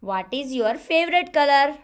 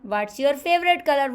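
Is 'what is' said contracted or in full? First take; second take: full; contracted. First: 'What is' is said as two full words. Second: 'What is' is contracted into one syllable. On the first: The speaker calls it wrong. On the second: The speaker calls it right.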